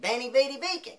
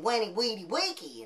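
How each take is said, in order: First: It uses the common modern Latin pronunciation. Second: It uses the classical Latin pronunciation. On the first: The speaker calls it wrong. "it doesn't pronounce that way" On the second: The speaker calls it right. "in the classical Latin"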